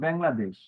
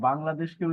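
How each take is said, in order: First: It is said with an anglicized European accent. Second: It is said with a native Bengali accent.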